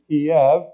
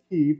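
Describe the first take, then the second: First: The name is pronounced the Russian way. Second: The name is pronounced the Ukrainian way. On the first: "that's the Russian way of pronouncing it" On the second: "that's the Ukrainian way to pronounce it"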